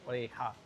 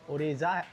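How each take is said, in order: First: The middle consonant is an 'h' sound. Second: The middle consonant is a 'j' sound. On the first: The speaker calls it right. "But ओरेहा बोलते हैं" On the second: The speaker calls it wrong. "ओरेजा होता है"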